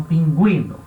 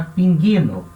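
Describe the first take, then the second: First: "pinguino" with the U heard as a W; sounded U with trema. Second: "pinguino" with hard G straight into ee; silent U, no trema. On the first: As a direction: say "pinguino" as peen-GWEE-no. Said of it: "pra alterar a forma de eu falar". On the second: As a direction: say "pinguino" as peen-GHEE-no. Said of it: "Então seria pinguino". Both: Shown as a demonstration.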